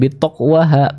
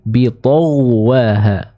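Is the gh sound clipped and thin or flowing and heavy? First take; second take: clipped thin; flowing heavy. First: The gh sound is clipped and thin. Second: The gh sound flows and sounds heavy. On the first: The speaker calls it wrong. "bukan bitawwaha" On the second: The speaker calls it right. "dengan cara mengalirkan serta menembalkan bacaan dari huruf ghain"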